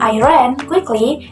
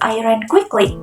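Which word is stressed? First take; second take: ran; quickly. First: The word ran is stressed. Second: The word quickly is stressed.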